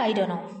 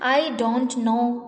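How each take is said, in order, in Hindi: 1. Don't know को एक शब्द में सिकोड़ा जाता है, dunno। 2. Don't know पूरे दो शब्दों में बोला जाता है। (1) "डोंट नो का रिडक्शन है" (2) "आई डोंट नो के बजाय"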